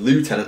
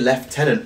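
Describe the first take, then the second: First: The first syllable sounds like French 'lieu'. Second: The first syllable does not sound like 'lieu'. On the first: This follows the spelling and the French origin. "it looks like lieutenant because it's based off the French lieu" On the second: This is how the speaker normally says it. "I say lieutenant"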